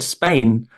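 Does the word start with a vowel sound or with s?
with s. The word begins directly with the s sound. "even for the for the for the word Spain"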